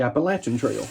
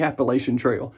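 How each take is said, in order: First: Appalachian Trail with LATCH in Appalachian; preferred pronunciation of Appalachian. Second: Appalachian Trail with LAY-shun in Appalachian; wrong pronunciation of Appalachian. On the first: Shaver correcting the trail name, Appalachian with a short A as in "latch". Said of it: "No, it's not the Appalachian Trail". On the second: Shaver quoting the wrong trail name, Appalachian with a long A as in "lay". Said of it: "It's the Appalachian Trail". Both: Shown as a demonstration.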